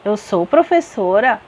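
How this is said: It is said with a rising, questioning tune. The speaker asks whether it is true. "eu perguntei"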